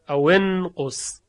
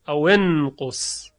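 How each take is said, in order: First: The linking vowel after 'aw' is 'i'. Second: The linking vowel after 'aw' is 'i'.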